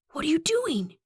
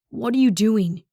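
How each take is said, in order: First: High-pitched hissed question; hushed but urgent hiss. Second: Firm, voiced exasperated demand; mildly raised, incredulous voice; urgent challenge. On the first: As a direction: hiss it in alarm, high and tight. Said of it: "he hisses". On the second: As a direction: demand an answer, openly alarmed. Confronts runner after pulling them back. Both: A narrator's reading.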